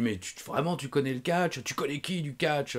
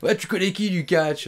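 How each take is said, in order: First: Slightly raised mock questioning; lightly acted challenge; imitated insistence. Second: Loud, high mock challenge; hammed-up pushy promoter demanding an answer; imitated insistence. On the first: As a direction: press the question as the doubting promoter. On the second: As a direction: fire the question back, much louder and higher. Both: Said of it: "il insistait".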